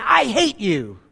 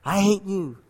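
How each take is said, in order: First: Put-on mildly angry boy's outburst; mock angry. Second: Soft, distant echo; cave echo. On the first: Angry boy shouting at the cave, mild mock anger. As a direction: lightly act a boy's angry cry. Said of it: "The boy got angry and said". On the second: Acted. Cave returning the boy's hatred, soft echo. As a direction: hush it into a faraway echo. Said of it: "the cave echoed back".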